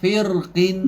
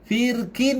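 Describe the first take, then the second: First: The r is heavy, with lips rounded. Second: The r is light, with lips spread wide. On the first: "Kalau tebal, kuncup, cekung-cekung"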